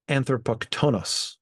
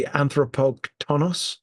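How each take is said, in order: First: Anthropoktonos with the stress on the second-to-last syllable, -to-, falling at the end; stress on penultimate syllable. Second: Anthropoktonos stressed on the syllable the accent mark shows, said slowly; stress per the accent mark. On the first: Learner fixing the stress of a Greek word, corrected stress. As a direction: lean on the -to- in anthropoktonos, not the ending. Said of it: "on the penultimate syllable".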